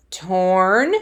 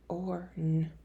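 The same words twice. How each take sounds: First: Said in the usual way. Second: Soft whisper, sounding the word out; whispered segmenting of Torn. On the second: Shown as a demonstration. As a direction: breathe it out under your breath. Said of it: "if you need to slide the sounds".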